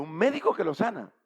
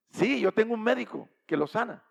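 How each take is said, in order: First: Louder, amused disbelief; incredulous scoff. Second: Loud, higher, firm affirmation; emphatic assurance. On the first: Wife questioning the stranger's doctor, incredulous. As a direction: question it as if laughable. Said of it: "ella se rió". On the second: Stranger answering the doubting wife, emphatic assurance. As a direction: insist on it with full confidence. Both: Retold or imitated.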